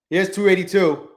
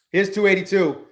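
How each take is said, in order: Both takes have the same delivery.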